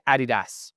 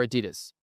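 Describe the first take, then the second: First: "Adidas" as AH-dee-dahss, stress on the first syllable; contrasting pronunciations. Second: "Adidas" as uh-DEE-dus, stress on the second syllable; American pronunciation. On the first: Challenging Grace on accents, "Adidas" stressed on its first syllable. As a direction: say "Adidas" European-style, front-stressed. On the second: Challenging Grace on accents, "Adidas" stressed on DEE. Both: Retold or imitated. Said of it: "How do you say Adidas or Adidas?".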